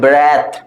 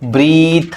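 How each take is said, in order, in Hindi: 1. स्वर 'e' की छोटी ध्वनि है। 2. स्वर 'ee' की लंबी ध्वनि है। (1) "ए है" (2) "नहीं होता है ... इट्स ई नहीं है"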